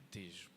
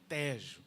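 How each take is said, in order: First: The first vowel is closed. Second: The first vowel is open. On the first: This is how Brazilians say it. The speaker calls it wrong. "o brasileiro diz Tejo. Não é Tejo" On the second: This is how the Portuguese say it. The speaker calls it right. "é Tejo, abre mesmo"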